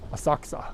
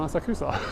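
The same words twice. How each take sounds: First: The name is said quickly with syllables run together. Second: Every syllable of the name is said out clearly. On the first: This is how local residents say it. "people who live in the neighborhood don't call it that. They call it Asakusa" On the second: This is how outsiders say it. "they want to enunciate every bit of it"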